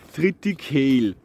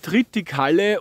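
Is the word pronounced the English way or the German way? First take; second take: English; German. First: The word is pronounced with English sounds. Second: The word is pronounced with German sounds.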